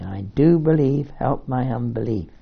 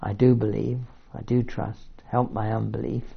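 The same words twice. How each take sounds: First: Crying out. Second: Said in the usual way. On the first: A narrator's reading. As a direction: call out to Jesus, begging for help. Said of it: "the boy's father cried out". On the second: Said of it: "it's confessing too one's inadequacy".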